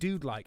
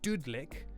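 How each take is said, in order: First: The first vowel sounds like in dude. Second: The first vowel sounds like in pudding. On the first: "as in like a dude, dude-esque" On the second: "option one, Dudlik? Dud as in pudding"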